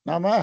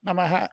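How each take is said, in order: First: The final vowel is slightly lengthened. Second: The final vowel is cut short. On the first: The speaker calls it right. "அத லேசா நீட்டி சொல்றது" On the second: The speaker calls it wrong. "நமஹ அப்படி சொல்லாம"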